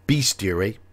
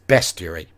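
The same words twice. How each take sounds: First: The first vowel is a long E sound. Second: The first vowel is a short E sound. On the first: The speaker calls it wrong. "I do hear a lot of people say pronounce that word bestiary" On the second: The speaker calls it right. "No, it is bestiary. It's a short E"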